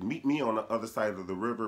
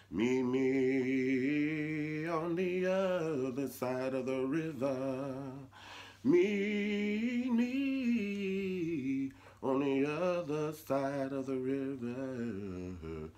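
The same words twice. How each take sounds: First: Secret message. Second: Slow, drawn-out sung spiritual; spiritual singing. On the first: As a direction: pass a hidden message casually. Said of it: "Harriet was talking to the slaves". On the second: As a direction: sing it like a slave spiritual. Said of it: "they all just started saying". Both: Retold or imitated.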